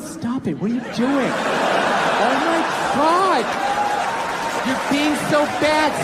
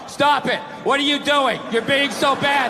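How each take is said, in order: First: It is said in a playful, teasing tone. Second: It is read out in a flat tone.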